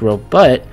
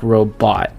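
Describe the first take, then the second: First: The second syllable has a short U vowel. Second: The second syllable has a softer O vowel. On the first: "with a short U" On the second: "a softer O"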